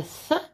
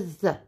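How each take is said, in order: First: TH as a short puff of air; unvoiced TH. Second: TH with a buzz of voice; voiced TH. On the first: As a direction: breathe TH, as in mouth. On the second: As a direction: voice TH, as in weather. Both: Shown as a demonstration. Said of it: "Three is like mouth".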